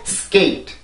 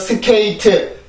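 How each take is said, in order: First: The word is said as one syllable. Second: The word is split into four syllables. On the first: The speaker calls it right. "skate라고 하는 일음절의 단어가 됩니다" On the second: The speaker calls it wrong. "절대로 스케이트, 스케이트라는 사음절이 아니고"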